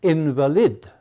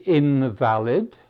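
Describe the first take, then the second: First: Invalid said IN-vuh-lid, as for a sick person; first-syllable stress. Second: Invalid said in-VAL-id, as in not valid; second-syllable stress. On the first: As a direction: stress the front of invalid, weak middle vowel. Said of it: "How about invalid?". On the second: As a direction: stress the middle of invalid with a full a. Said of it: "looks like invalid". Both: Shown as a demonstration.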